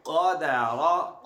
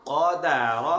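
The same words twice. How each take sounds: First: क़दर stretched very slowly, rising at the end; slow drawn-out reading. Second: क़दर called out loud and firm. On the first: Teacher slowly modelling the joined word. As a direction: draw out क़दर syllable by syllable. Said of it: "join कीजिए". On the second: Teacher asks the child to say the word loudly. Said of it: "ऊंची आवाज से क़दर". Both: Shown as a demonstration.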